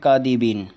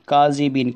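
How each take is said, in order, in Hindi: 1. बीच का व्यंजन d की आवाज़ है। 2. बीच का व्यंजन z जैसी आवाज़ है। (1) "जाल की जगह जो है वहाँ पर दाल पढ़ रहे हैं" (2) "यहाँ पर काज़िबीन आता है।"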